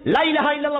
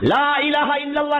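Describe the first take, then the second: First: The syllables blur together to sound like 'laila'. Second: Every syllable of the phrase is said clearly. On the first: It sounds like calling a lover's name. The speaker calls it wrong. "লাইলা লাইলা লাইলা হচ্ছে ওদের প্রেমিকের নাম" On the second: It is the proper phrase of remembrance. The speaker calls it right. "লা ইলাহা ইল্লাল্লাহ না বলে"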